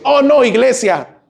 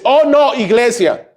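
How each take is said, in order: First: Slow, higher, groaning reluctance; mock whining. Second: Much higher, hammed-up groan of reluctance; mock whining. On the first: (queja burlona y lenta) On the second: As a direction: whine it like a spoiled child. (queja exagerada y aguda) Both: Imita quejas del domingo.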